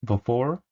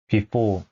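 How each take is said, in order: First: Before as bi-FOR, with f and r; 원어민 발음; native before. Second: Before as pi-po, both syllables flat; 한국식 before; Konglish before. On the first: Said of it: "전혀 다릅니다". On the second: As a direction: say before Korean-style without f or r. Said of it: "뭐 이런 식으로 읽으실". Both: Shown as a demonstration.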